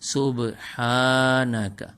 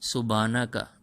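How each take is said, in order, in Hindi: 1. 'ha' स्वर लंबा किया जाता है। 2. 'ha' स्वर छोटा है। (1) "हा को लंबा करेंगे" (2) "अमूमन लोग पढ़ते हैं सुबहाना का"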